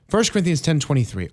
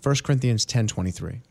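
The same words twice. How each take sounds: First: It is said in a put-on audiobook narrator voice. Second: It is said in his normal speaking voice.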